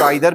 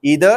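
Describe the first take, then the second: First: The first vowel sounds like 'eye'. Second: The first vowel sounds like 'ee'.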